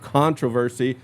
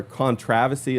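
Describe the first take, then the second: First: Said in the usual way. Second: "controversy" said the English way, stressed on the second syllable; British-style "controversy", stress on "trov" with the R dropped; British pronunciation. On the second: Shown as a demonstration. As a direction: say "controversy" as con-TROV-uh-see. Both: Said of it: "as they say over in England".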